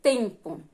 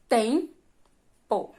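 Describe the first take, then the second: First: Said in the usual way. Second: "Tempo" split into TEM, pause, po; syllable by syllable. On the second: Shown as a demonstration. Teacher asking for the strong syllable, "Tempo" pulled apart. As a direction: say "Tempo" as two separated beats, first one stronger.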